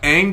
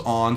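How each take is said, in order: First: The name is said the anglicized way. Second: The name is said the Asian-style way. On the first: This is how the cartoon says it. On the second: This is how the film says it.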